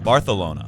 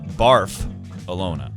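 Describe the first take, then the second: First: The start does not sound like barf. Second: The start sounds like the word barf. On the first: The speaker calls it right. "the correct pronunciation of Barcelona is Barcelona" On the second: The speaker calls it wrong. "Not Barf-alona, like I've been saying"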